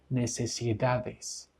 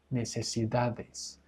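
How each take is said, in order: Both takes have the same delivery.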